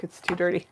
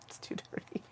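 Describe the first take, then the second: First: Said in the usual way. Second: Hushed whisper of the same words; whispering it to the audience. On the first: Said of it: "It's too dirty. (whispered repeat)". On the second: Shown as a demonstration. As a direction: breathe it out as a secret.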